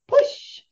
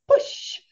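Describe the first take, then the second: The two takes are said the same way.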